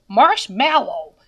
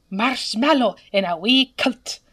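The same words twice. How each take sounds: First: "marshmallow" in a plain American accent, a little louder. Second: "marshmallow in a wee kilt" in a light put-on Scottish accent; mock Scottish marshmallow. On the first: Demonstrating how an American says it, plain American accent. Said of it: "Ask a person to say marshmallow". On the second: Demonstrating how a true Scot says it, light mock Scottish accent. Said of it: "if they're truly Scottish". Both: Shown as a demonstration.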